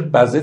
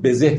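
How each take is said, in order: First: بزه said "bazeh", with an a in the first syllable; old-style "ba-zeh" for بزه; poetic pronunciation. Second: بزه said "bezeh", with an e in the first syllable; everyday "be-zeh" for بزه; modern pronunciation. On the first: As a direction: open the first vowel of بزه to "ba". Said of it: "به خاطر موسیقی شعر بزه تلفظ کردیم". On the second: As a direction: say بزه today's way, starting "be". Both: Shown as a demonstration.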